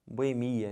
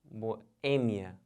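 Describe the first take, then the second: First: "Boemia" as bo-e-MI-a; wrong stress on MI. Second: "boêmia" as bo, pause, Ê-mia; stress on Ê. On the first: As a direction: lean on MI in "Boemia". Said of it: "Mas tá errado". ("Boemia" errado, tônica no MI) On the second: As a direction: break after bo and land on Ê in "boêmia". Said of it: "O certo é". ("boêmia" com pausa e tônica no Ê) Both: Shown as a demonstration.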